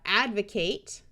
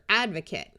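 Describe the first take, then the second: First: The last syllable has a clear long A. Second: The last syllable has a reduced schwa. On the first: It is used as a verb. "Here we have advocate" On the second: It is used as a noun. "the person who does the advocating is your advocate"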